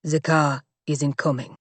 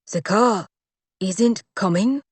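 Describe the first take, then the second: First: Low, grim flat statement; grim bodyguard. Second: Slow disbelieving question rising on isn't; restrained panic. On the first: Bodyguard tells them the car is not coming, low and grim. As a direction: deliver bad news bluntly. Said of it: "he said". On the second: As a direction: stress isn't in alarm. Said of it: "his version of panic". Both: Acted.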